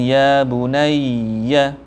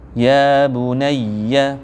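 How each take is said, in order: First: It has a hold before bunayya. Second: It runs straight through without any hold. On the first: The speaker calls it wrong. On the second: The speaker calls it right. "Bunayya langsung tanpa ditahan"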